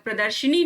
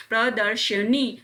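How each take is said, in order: First: प्रदर्शनी said "pra-dar-shi-nee"; quick "i" after sh in प्रदर्शनी; "shi-nee" ending on प्रदर्शनी; wrong inserted vowel. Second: प्रदर्शनी said slowly "pra-dar-sha-nee"; short "a" after sh in प्रदर्शनी; correct vowel. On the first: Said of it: "प्रदर्शनी नहीं". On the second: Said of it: "प्रदर्शनी होता है". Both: Shown as a demonstration.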